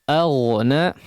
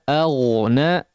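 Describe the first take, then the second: The two takes are said the same way.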